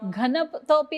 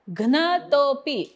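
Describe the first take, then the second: First: A vowel separates the g and n sounds. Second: The g and n sounds form one cluster. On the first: The speaker calls it wrong. "घनतोपी अजून कुणाचं होत आहे का?" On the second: The speaker calls it right. "घ्न म्हणा"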